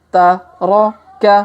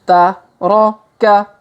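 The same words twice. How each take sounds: No difference in how they are said.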